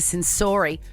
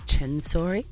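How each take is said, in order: First: The name begins with an 's' sound. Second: The name begins with a 'ch' sound.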